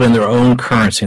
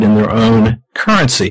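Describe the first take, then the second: First: Said in the usual way. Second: "in their own currency" set apart deliberately, a slight break before "currency"; stressed key phrase. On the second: Real, not acted. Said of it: "that's the key word".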